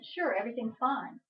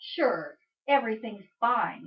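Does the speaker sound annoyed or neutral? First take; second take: neutral; annoyed. First: It is said in a plain, neutral tone. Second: It is said in an annoyed, miffed tone. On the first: Things really are fine. "in a text" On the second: Something is actually wrong. "I'm a little miffed"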